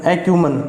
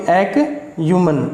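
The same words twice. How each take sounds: First: Said in the usual way. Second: "एक्यूमन" broken slowly into "ek", pause, "yuman"; syllable-by-syllable pronunciation. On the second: Shown as a demonstration. Teacher showing students the pronunciation, "एक्यूमन" split slowly as ek - yuman. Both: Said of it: "इसकी pronunciation क्या होगी".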